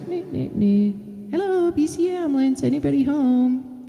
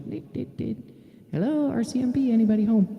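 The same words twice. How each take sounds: First: High, sing-song siren "nee, nee, nee" then a bright hello; paramedic wellness-check call. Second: Hushed, breathy siren "nee, nee, nee" rising into a higher hello; the same police call but held back and quiet; what police should call into a house, hushed then high; softer wellness-check call. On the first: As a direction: announce yourself at the door like a cheerful paramedic. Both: Shown as a demonstration. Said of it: "that's how you do it".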